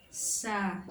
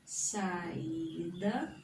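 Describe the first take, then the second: First: Sa-i-da, three separated syllables; split syllables. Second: Said in the usual way. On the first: Shown as a demonstration. Teacher sounding out Sa-i-da for students. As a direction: break Sa-i-da into Sa, i, da. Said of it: "Olha só, ó". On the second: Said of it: "Olha só".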